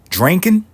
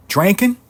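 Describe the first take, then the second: First: High, loud mock-incredulous question; a rising yelp of mock shock. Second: Even higher, loud disbelieving squeal; a louder, higher echo of the first yelp; more incredulous. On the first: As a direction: squeal it in disbelief. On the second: Acted. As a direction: push the disbelief further up.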